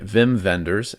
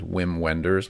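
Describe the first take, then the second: First: The name is pronounced the German way. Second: The name is pronounced the English way. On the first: The speaker calls it right. "I'd say it like that because he is German" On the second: The speaker calls it wrong. "I thought his name was"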